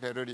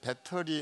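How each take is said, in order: First: The middle consonant is a soft flap. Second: The middle consonant is a clear t sound. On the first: This is already the American pronunciation. "벌써 베러리 베러리 이러니까" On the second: The speaker believes it is standard pronunciation. "상당히 표준말을 썼다고 생각하는데"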